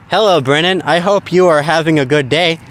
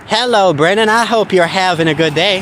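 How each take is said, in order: First: It is said in her old Ohio accent. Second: It is said in an Appalachian Kentucky accent.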